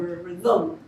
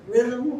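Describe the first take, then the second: First: The stress is on the second syllable. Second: The stress is on the first syllable.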